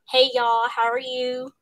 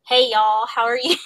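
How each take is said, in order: First: Southern accent. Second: Louder Southern accent greeting; bright Texas-style Southern hello to the family. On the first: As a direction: repeat the Southern hello, easing off at the end. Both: Shown as a demonstration. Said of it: "And Southern".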